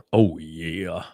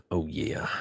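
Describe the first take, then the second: First: Said in the usual way. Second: Soft whispered oh yeah. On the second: Acted. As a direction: breathe it out as a whisper. Whispered then voiced repeat.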